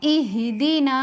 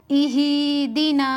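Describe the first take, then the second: First: इह दीना with the हा cut short, quick; correct short हा. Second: इह दीना with the हा wrongly stretched; wrongly lengthened हा in इह दीना; common mistake. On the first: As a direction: say इह quickly with no stretch on हा. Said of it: "हा को बगैर खींचे जल्दी कैसे पढ़ेंगे?". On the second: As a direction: show the mistake by drawing out the हा in इह. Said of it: "अक्सर लोग यहाँ पर इस तरह पढ़ते हैं". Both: Shown as a demonstration.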